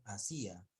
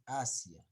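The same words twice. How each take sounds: First: "Asia" misread as a-SÍ-a; acento mal puesto en la Í. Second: "Asia" with a strong first A, then falling; acento corregido en la A. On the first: Retold or imitated. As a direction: imitate the misreading of "Asia" with a raised, stressed SÍ. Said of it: "aquí dijiste Asia". («Asia» mal leído, con fuerza en SÍ) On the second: Shown as a demonstration. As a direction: model "Asia" as A-sia, no stress on i. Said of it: "No hay tilde en la I". («Asia» con fuerza en la primera A)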